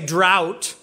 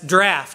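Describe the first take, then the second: First: The vowel sounds like the one in 'out'. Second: The vowel sounds like the one in 'raft'. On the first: The speaker calls it wrong. "I want to say drought" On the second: The speaker calls it right. "every pronunciation guide says draft"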